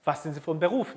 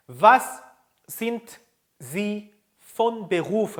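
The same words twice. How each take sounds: First: Said in the usual way. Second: Slow, a pause after each word; word-by-word model. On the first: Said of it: "이렇게 하죠". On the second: Shown as a demonstration. Teacher introduces the job question, word by word. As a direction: separate every word clearly for repetition. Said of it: "바로 요렇게 합니다".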